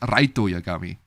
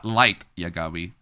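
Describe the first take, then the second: First: The first name is said as Japanese-style 'Raito'. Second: The first name is said as English 'Light'. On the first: "the Indonesian dub of Death Note pronounced it as Raito Yagami" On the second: "not Light Yagami"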